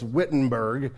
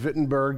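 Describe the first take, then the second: First: The name begins with a W sound. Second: The name begins with a V sound. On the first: "if you're speaking it like a Missouri person who doesn't know how to say any of our stuff right" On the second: "all the W's sound like V if you're German"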